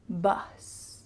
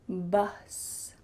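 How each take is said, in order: First: The vowel is a clear short U sound. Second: The same.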